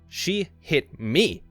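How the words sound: The stress falls on the word me. It was outrageous that she touched this person. "emphasizing the last word"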